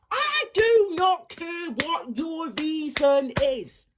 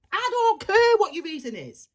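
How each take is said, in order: First: Every word slow and hammered home; slow emphatic refusal. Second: Said in the usual way. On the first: Real, not acted. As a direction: spell it out word by word. Ranting at excuse-makers.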